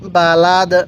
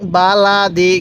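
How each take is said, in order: First: The word ends on the 'd' consonant. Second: The word ends with an 'i' vowel. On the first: The reader stops at this word. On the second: The reading continues without a stop.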